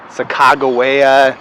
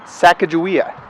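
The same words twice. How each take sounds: First: The middle consonant is not a j sound. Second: The middle consonant is a j sound. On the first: This is how many people elsewhere say it. "I know a lot of people say Sacagawea" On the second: This is how people in Montana say it. "here in Montana, we spell it with a J, and we pronounce it Sacagawea"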